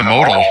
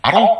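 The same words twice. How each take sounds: First: "modal" said as MOH-dul, rhyming with "yodel"; "modal" with a long O and a clear D; modal slip. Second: "model" said as MOD-ul, short O as in "mod"; "model" with the short O of "hot"; model corrected. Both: Real, not acted. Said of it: "model, the model thing".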